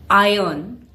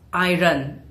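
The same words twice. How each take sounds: First: One written letter is left silent. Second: Every written letter is clearly pronounced. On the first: The speaker calls it right. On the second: The speaker calls it wrong.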